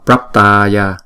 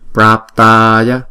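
First: The first syllable is short, not held. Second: The first syllable is held for two beats. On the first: The speaker calls it wrong. "Đừng có đọc là Praptaya, Prap là không đúng" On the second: The speaker calls it right. "Chữ Bra chúng ta đọc là hai nhịp, xong rồi chúng ta mới đóng chữ đó lại bằng chữ P"

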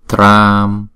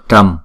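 First: The vowel is drawn out for two beats. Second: The vowel is short and clipped. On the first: The speaker calls it right. "mà đọc là tram, a là kéo dài hai nhịp" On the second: The speaker calls it wrong. "không đọc là trăm"

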